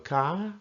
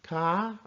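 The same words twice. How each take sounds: The two takes are said the same way.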